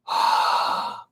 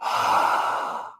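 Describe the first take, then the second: First: Closed-mouth ocean-sound breath from the throat; the same throaty exhale with sealed lips; Ujjayi breath. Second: Throaty open-mouthed haa exhale; open-mouth throat breath. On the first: Teacher showing Ujjayi to class: closed-lip throat breath. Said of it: "but just do it with closed mouth". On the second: Teacher showing throat muscles to class: open-mouthed haa. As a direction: fog the mirror with an open mouth. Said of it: "when you make that sound with your throat". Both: Shown as a demonstration.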